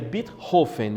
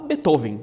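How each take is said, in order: First: The name is pronounced the German way. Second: The name is pronounced the Brazilian Portuguese way. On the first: This is how the name is said in its original language. "a pronúncia correta dele seria Beethoven, porque ele é alemão" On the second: This is how the name is said in Brazil. "como a gente está em, em português brasileiro, então vamos falar Beethoven"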